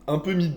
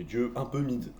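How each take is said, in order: First: Higher, louder punchline; emphatic. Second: Said in the usual way. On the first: Pretend. Repeated quip louder.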